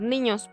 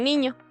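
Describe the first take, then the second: First: The word ends with an audible 's'. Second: The word ends without any 's' sound. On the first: "el plural vendría a ser niños" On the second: "Ellos suprimen la S y solo dicen niño"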